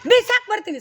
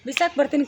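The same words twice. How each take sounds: First: ಬಿಸಾಕ್ hit loud and high; more force. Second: Said in the usual way. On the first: Shown as a demonstration. Director showing a louder threat than the actor gave. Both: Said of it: "ಕಮ್ಮಿ ಆಯ್ತು".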